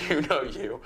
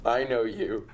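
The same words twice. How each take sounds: First: Words breaking into a laugh; can't get it out without laughing. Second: Said in the usual way. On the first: Real, not acted. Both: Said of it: "I can't even say it without laughing".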